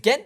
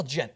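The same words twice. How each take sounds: First: "Ghent" with a hard G as in get; alternative pronunciation. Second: "Gent" with a soft G as in gentleman; alternative pronunciation. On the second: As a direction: say "Gent" starting with a J sound. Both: Shown as a demonstration. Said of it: "I don't know how to say that".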